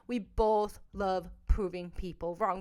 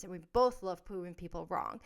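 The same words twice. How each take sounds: First: Slow, with weight on both; slower repeat leaning on both; emphatic repeat. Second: Said in the usual way. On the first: Real, not acted. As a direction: press each word of "We both love proving people wrong".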